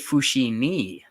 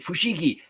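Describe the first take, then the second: First: The middle consonant is an n-like sound. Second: The middle consonant is a hard g sound. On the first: "they they say fushini" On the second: "instead of fushigi, like oh, amazing fushigi"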